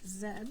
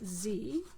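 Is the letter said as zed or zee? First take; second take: zed; zee. First: The letter is said as zed. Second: The letter is said as zee.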